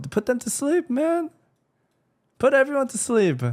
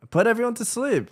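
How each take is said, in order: First: Even higher, pushed mocking cry; high mock villain voice. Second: Pitched way up, mocking the plan; squeaky sarcastic decree; high mock villain voice. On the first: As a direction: squeal it out in mock triumph. Mocking Miquella's plan, louder.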